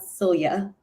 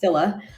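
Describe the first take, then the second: First: The name ends with an added 'ee-ah' sound. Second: The name ends without an added 'ee-ah' sound. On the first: The speaker calls it wrong. "it's not Celia" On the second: The speaker calls it right. "it's Scylla"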